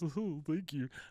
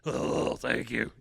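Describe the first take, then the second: First: It is said in a plain voice. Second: It is said in a rough voice.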